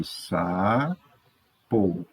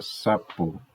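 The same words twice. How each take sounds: First: SAPO pulled apart slowly, saa, po; syllable by syllable. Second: Said in the usual way. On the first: Shown as a demonstration. Teacher writing sapo in two boxes, syllable by syllable. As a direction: say sapo slowly with a pause after sa. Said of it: "duas sílabas". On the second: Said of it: "Então, aqui, sapo".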